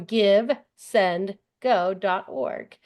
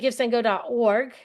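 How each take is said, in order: First: The words come slowly with pauses between. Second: The words run together quickly without breaks. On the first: The speaker calls it right. "I'm going to say it slower" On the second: The speaker calls it wrong. "because I say it so fast"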